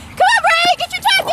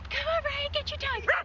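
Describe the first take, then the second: First: It is called in a loud voice. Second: It is called in a quiet voice.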